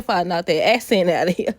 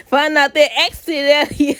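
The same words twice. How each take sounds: First: Said in the usual way. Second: "Find out that accent out of here" hammed up, higher and louder; mock-voicing Hope telling Daphne off. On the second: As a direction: playfully put on a bossy soap-star voice. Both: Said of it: "She ain't said that for real".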